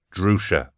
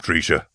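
First: Said in the usual way. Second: "Drusha" said DREE-sha; mispronounced name. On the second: A narrator's reading. Falcon thanking his guest, "Drusha" mispronounced as DREE-sha. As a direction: say "Drusha" with ee in place of oo. Name said wrong, then corrected.

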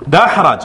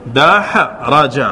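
First: Said in the usual way. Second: دحرج stretched very slowly, each syllable separate; teacher repeating دحرج at a crawl for students; slowed teaching demo. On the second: Shown as a demonstration. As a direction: draw دحرج out slowly so every vowel is heard. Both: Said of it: "انظر".

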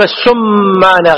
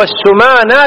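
First: "السمانة" as as-summana, held m; mistaken doubled mim. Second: "السمانة" as as-sumana, single m; light mim. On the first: Teacher showing what not to say, "السمانة" with heavy m. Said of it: "غلط هذا". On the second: Teacher reading the bird's name correctly, "السمانة" with light m. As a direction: keep the m of "السمانة" short and undoubled. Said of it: "تخفيف الميم". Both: Shown as a demonstration.

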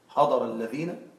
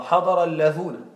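First: حضر الذين with the ending said as -ذينَ, a long ee sound; careful teacher demo of حضر الذين with the ee ending; the ya form. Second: حضر اللذون with the ending said as -ذونَ, a long oo sound; teacher demo of the dialect form اللذون with the oo ending; the waw form. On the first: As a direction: say الذين with a clear ya, not waw. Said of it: "أن تكون بالياء". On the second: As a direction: say اللذون with a clear waw, not ya. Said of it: "أن تكون بالواو في الرفع". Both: Shown as a demonstration.

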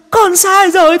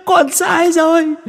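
First: Far higher, louder desperate shriek; shrieking ghost plea. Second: Far higher, slow drawn-out plea; pleading ghost wail. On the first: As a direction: scream the plea at full force. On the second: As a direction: drag out the begging. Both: Acted. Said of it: "mà rú lên".

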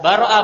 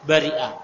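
First: "baro'a" with an A vowel after the B; first variant reading. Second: "bari'a" with an I vowel in the middle; second variant reading. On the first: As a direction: say "baro'a", middle syllable as "ro". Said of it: "Boleh dibaca baro'a". (ucapkan "baro'a" dengan ba berfathah) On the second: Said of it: "boleh dibaca". (ucapkan "bari'a" dengan ra berkasrah) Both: Shown as a demonstration.

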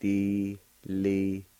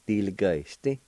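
First: "Diligesti" drawn out slowly; very slow careful demo; slow pronunciation. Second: Said in the usual way. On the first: Shown as a demonstration. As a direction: stretch each syllable like a teacher. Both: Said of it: "It'll be pronounced like this".

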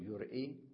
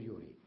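First: "يرئي" as yur-'ii, glottal stop after r; original form with hamza. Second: "يري" as yu-rii, no glottal stop; hamza dropped. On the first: Teacher showing the form not said, hamza kept in "يرئي". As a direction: break "يرئي" with a hamza before the final ii. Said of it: "لا نقول يرئي". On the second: Teacher giving the reduced form, "يري" without hamza. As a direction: run r straight into long ii in "يري". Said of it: "فنحذف الهمزة". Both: Shown as a demonstration.

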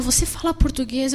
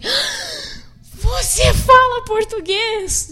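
First: Said in the usual way. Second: Very high, slow, drawn-out você fala português?; amazed disbelief. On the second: Retold or imitated. Missionary stunned a stranger speaks Portuguese, very high and slow. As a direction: stretch it out in delighted shock.

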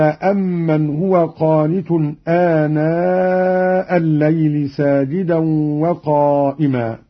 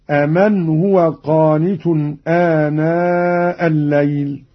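First: أمن said "amman"; doubled meem. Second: أمن said "aman"; lightened meem. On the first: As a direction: hum the held double m in أمن. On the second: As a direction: keep a single short m in أمن. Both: Shown as a demonstration. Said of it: "بتخفيف الميم".

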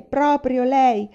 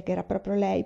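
First: "proprio lei" slowed right down, louder and higher; slow emphatic proprio lei. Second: Said in the usual way. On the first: A narrator's reading. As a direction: lean hard on "proprio lei", drawn out.

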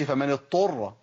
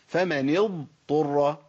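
First: فمن اضطر with ض turned into ط, like ettorra; اضطر said as a doubled ط; wrong merged dad. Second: فمن اضطر slowly, ض then ط kept apart; اضطر with ض fully sounded before ط; correct dad before taa. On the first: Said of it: "ما اقولش". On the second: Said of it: "سامعين الفصل". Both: Shown as a demonstration.

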